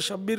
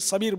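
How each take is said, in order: First: The name begins with an 'sh' sound. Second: The name begins with a plain 's' sound. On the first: The speaker calls it right. "शब्बीर को" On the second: The speaker calls it wrong. "हमारी कौम में तो वो शब्बीर को सबीर सबीर बोलते हैं"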